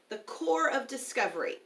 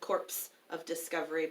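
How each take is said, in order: First: The word is said without a P sound. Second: The word is said with P and S sounds. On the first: The speaker calls it right. "Corps is a French word, so the P is silent" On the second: The speaker calls it wrong. "some people do pronounce it"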